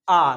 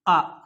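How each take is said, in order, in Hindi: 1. स्वर को ज़्यादा देर तक खींचा जाता है। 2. स्वर बस थोड़ी देर के लिए बोला जाता है। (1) "तो आपको ज्यादा समय लग रहा है" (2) "इसमें आपको कम समय लगा"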